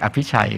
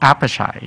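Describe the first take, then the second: First: The syllables are said evenly, Thai style. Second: The first syllable is stressed and the middle is dropped. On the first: "ฝรั่งเขาจะไม่เรียกอภิชัย" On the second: "เขาเรียกอัปชัยเพราะว่าเขาต้อง stress"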